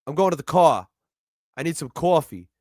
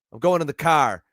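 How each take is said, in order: First: Light New York accent, coffee said with a rounded cawfee. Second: Light Boston accent, dropping the r in car. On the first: Contrasting New York with Boston, in a New York accent. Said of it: "That's New York". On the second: Explaining Boston versus New York speech, in a Boston accent. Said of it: "that's Boston". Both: Shown as a demonstration.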